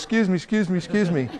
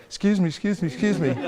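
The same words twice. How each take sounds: First: Hammed-up pushier excuse me, laughing at the end; the worst kind of over-eager salesman; even more hyper. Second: Eager, pushy repeated excuse me with a laugh; pestering salesman calling excuse me; hyper pushy. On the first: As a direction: overdo the pestering, mock desperate. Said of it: "Or even worse". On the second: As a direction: chase after a stranger, too keen. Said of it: "don't get all hyper". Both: Shown as a demonstration.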